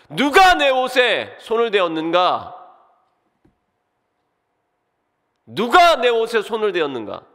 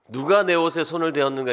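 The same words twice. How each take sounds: First: Loud call. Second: Lightly voiced, solemn Gungye tone; a hint of the drama king Gungye; Gungye manner of speech. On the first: A narrator's reading. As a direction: cry it out so everyone hears. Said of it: "큰 소리로 외치셨습니다". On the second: Shown as a demonstration. Preacher jokes his line sounds like Gungye, lightly solemn. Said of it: "그 궁예 말투".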